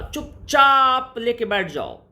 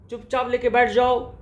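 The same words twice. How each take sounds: First: चुपचाप with its second syllable चाप stretched long; drawn-out stress. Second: Said in the usual way. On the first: Shown as a demonstration. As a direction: drag out the चाप in चुपचाप for emphasis. Teacher dramatizes keeping quiet. (चुपचाप के "चाप" को लंबा खींचकर)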